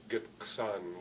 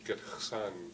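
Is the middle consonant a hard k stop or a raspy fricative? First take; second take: hard stop; raspy fricative. First: The middle consonant is a hard k stop. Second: The middle consonant is a raspy fricative. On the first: "with a K" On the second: "with an X"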